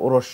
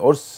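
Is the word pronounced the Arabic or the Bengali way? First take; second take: Bengali; Arabic. First: The word is pronounced the Bengali way. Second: The word is pronounced the Arabic way. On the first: The speaker calls it wrong. "লোকেরা বাংলাতে করে নিচ্ছে ওরস, শুদ্ধ নয়" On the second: The speaker calls it right. "ওরস আরবি শব্দ"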